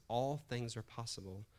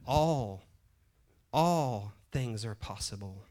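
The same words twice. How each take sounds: First: Said in the usual way. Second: "all" drawn out loud, said twice; stress on ALL. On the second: Retold or imitated. God answering a doubting Kevin, stress on "all". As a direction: lean hard and long on "all", then ease through the rest.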